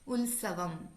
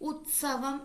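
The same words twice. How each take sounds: First: An l sound comes before the s. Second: A t sound comes before the s. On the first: The speaker calls it wrong. "ല് ആയി ഉച്ചരിക്കാറുണ്ട്" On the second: The speaker calls it right. "ത് എന്ന ശബ്ദം"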